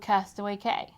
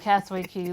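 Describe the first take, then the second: First: The last word sounds like 'kay'. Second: The last word sounds like 'key'. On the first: The speaker calls it wrong. "Every single video of this entire series is going to say it wrong" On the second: The speaker calls it right.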